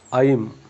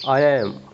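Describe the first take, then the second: First: The words are joined into one short syllable. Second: Both words are said in full, separately.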